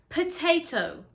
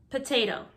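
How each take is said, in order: First: The second T is a hard, crisp T. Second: The second T is soft, like a D. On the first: This is how British speakers say it. "British people really pronounce their T. Notice the hard T" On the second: This is how American speakers say it. "Americans, however, soften their T's"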